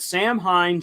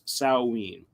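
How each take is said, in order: First: The word is read the way it is spelled. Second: The word is said in its traditional pronunciation. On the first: The speaker calls it wrong. "I know that I spelt this Samhain" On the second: The speaker calls it right. "should be pronounced Samhain"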